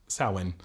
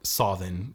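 First: It is said in the modern pronunciation. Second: It is said in the old Irish pronunciation.

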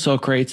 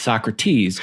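First: The name is said in a colloquial pronunciation. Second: The name is said in its standard pronunciation. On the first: The speaker calls it wrong. "It's not Personal Socrates" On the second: The speaker calls it right. "It's Socrates"

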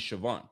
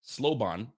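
First: The name begins with an 'sh' sound. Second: The name begins with an 'sl' sound. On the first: The speaker calls it right. "but it's really Siobhan" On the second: The speaker calls it wrong. "I see an L in there"

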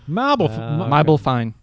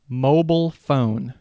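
First: It is said in an Australian accent. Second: It is said in a plain, neutral accent.

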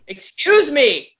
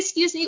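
First: It is said in a firm, commanding, authoritative voice. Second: It is said in a casual, ordinary everyday voice. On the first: An authoritative request that expects others to move. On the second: A polite everyday request to get past.

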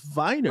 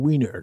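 First: The name begins with a V sound. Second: The name begins with a W sound. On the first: The speaker calls it right. "correct everybody, my last name is Viner" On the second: The speaker calls it wrong. "That's not how you pronounce that"

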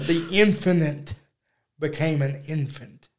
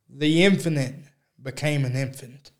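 First: The phrase is said slowly with careful articulation. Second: The phrase is said quickly and casually.

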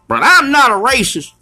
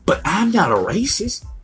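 First: It is said in a put-on voice. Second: It is said in his normal voice.

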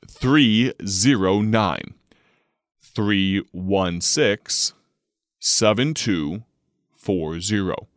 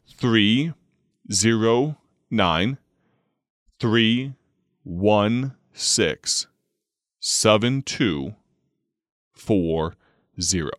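First: The number is read at a moderate pace. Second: The number is read very slowly.

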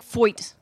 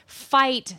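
First: It is said in a Philadelphia accent. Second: It is said with a standard vowel.

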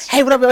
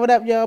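First: It is said with lively, high energy. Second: It is said flatly, with little energy.

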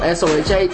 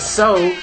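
First: It is said as separate spelled-out letters. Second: It is said as one syllable rhyming with no. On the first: It is clearly the name of the site. The speaker calls it right. "pronounce SOHH letter by letter" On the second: It sounds like the ordinary word so. The speaker calls it wrong. "I call this shit so, as in rhymes with no"

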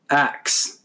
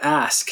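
First: The word ends with a k-s sound. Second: The word ends with an s-k sound. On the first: "It says people commonly pronounce it" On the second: "the word ask"

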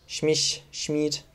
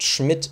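First: The vowel i is long. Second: The vowel i is short. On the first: This is how Spanish speakers say the name. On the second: This is the name's usual pronunciation.

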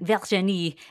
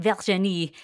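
First: The name is said with a French accent. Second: The same.

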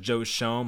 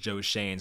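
First: The surname is said with an 'oh' vowel. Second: The surname is said with an 'ay' vowel. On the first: The speaker calls it wrong. "I always thought it was Joe Shone, my dumbass" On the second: The speaker calls it right. "I saw it was Joe Shane, so I wanted to nail that pronunciation"

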